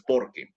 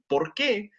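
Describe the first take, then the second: First: "por qué" stressed on POR; entonación de respuesta. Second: "por qué" stressed on QUÉ; entonación de pregunta. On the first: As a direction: say "por qué" as one joined word, "qué" left unstressed. ("por qué" átono, como "porque") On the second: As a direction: lift the final "qué" of "por qué" as the question word. ("por qué" con acento en QUÉ) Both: Shown as a demonstration. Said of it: "Y la entonación cambia".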